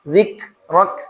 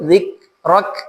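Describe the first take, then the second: First: The final k releases only a little air. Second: The same.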